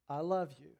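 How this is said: It is said in a soft, gentle tone. The child feels safe and responds. The speaker calls it right. "you gently say"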